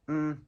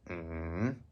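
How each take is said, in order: First: The pitch stays high and level. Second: The pitch dips low, then rises. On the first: "High and flat" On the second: "falling, then rising"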